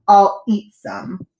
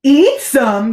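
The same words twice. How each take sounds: First: Very slow, deliberate announcement; unconcerned boast. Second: Loud, higher incredulous echo; horrified gasp. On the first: Captain shows boy it's harmless, boasting slowly. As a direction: announce it with drawn-out confidence. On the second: Boy hears captain's plan, gasping. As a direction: gasp it back in shock. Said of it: "gasped Bartholomew". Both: A narrator's reading.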